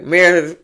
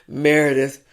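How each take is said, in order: First: It is said in a normal voice. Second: It is said in a deep voice.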